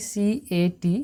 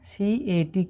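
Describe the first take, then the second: No difference in how they are said.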